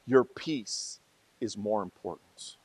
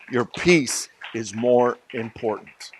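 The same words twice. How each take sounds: First: Soft and slow. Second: Said in the usual way. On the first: Real, not acted. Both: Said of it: "repeated for emphasis".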